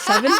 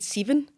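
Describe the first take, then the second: First: It is said with a neutral standard pronunciation. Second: It is said with a broad Scottish pronunciation.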